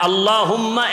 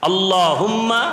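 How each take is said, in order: No difference in how they are said.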